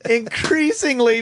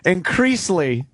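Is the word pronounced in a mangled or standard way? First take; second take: standard; mangled. First: The word is pronounced in a standard way. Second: The word is pronounced in a mangled, slurred way. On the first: The speaker calls it right. "increasingly becomes" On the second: The speaker calls it wrong. "becomes increasingly"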